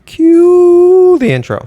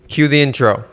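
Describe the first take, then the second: First: It is said with some feeling. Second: It is said flatly, without feeling.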